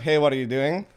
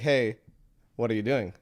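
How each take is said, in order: First: It is said with no pause. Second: There is a pause after hey.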